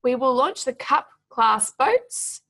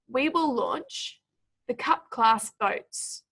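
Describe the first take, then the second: First: "we will launch the cup class boats", key words punched, rising at the end; emphasis on key words. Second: "we will launch", pause, "the cup class boats", slow and falling; pauses between clauses. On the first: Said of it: "we want to be emphasizing". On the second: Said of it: "put them in for you". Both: Shown as a demonstration.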